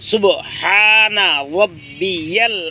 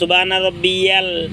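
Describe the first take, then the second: First: The b is said with an echoing bounce. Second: The b is said plainly without a bounce. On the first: The speaker calls it right. "সুব কলকলা" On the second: The speaker calls it wrong. "ভুল হবে"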